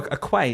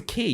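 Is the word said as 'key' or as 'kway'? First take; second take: kway; key. First: The word is said like 'kway'. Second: The word is said like 'key'. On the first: The speaker calls it wrong. "you think, oh" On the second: The speaker calls it right. "You pronounce it key"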